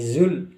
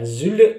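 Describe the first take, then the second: First: The final L is held without a bounce. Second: The final L is released with a bounce. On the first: The speaker calls it right. "zul ditahan" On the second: The speaker calls it wrong. "jangan sampai dipantulkan"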